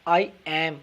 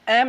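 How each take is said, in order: First: It is said as two full separate words. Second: It is said as one contracted syllable. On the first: The speaker calls it right. "आई एम पूरा देना answer" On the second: The speaker calls it wrong. "एम नहीं कहना"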